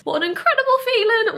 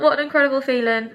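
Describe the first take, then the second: First: High, loud and giddy with relief; elated relief. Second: Said in the usual way. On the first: Real, not acted. Vlogger giddy after her housing problem is solved. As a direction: let it all spill out happily.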